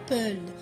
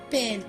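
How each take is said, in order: First: The vowel is a rounded 'eu' sound. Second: The vowel is an open 'è' sound. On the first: The speaker calls it wrong. "On ne dit pas peule" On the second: The speaker calls it right. "On dit pelle parce que nous avons le son, la syllabe L"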